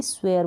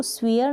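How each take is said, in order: First: स्वेयर with an "ay" vowel, "sway-er"; correct pronunciation of swear. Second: स्वेयर said wrongly with long ee, "swee-er"; mispronounced swear. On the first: Teacher models the right reading of swear, correct pronunciation. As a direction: say स्वेयर with the ए sound. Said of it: "इसको भी स्वेयर बोलेंगे". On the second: Teacher shows learners what not to say, mispronounced swear. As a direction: make स्वेयर rhyme with "fear". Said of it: "इसको स्वेयर नहीं बोलेंगे". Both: Shown as a demonstration.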